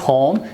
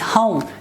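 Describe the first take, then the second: First: The vowel is a short single vowel. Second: The vowel is a gliding diphthong. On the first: The speaker calls it wrong. "This is not home" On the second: The speaker calls it right. "this is home. This diphthong is here"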